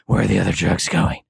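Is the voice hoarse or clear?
hoarse. It is said in a hoarse, gravelly voice.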